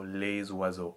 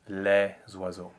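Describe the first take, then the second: First: The vowel in les is a closed e. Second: The vowel in les is an open e. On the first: This is everyday spoken usage. "in spoken French, they have become a closed vowel" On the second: This is formal lyric or theatrical diction. "In proper lyric diction and theatrical French, they have to be an open vowel"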